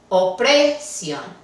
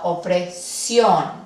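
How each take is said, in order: First: The stress is on the second-to-last syllable. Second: The stress is on the last syllable. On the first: The speaker calls it wrong. "La penúltima debería de recibir la acentuación" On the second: The speaker calls it right. "sino opresión"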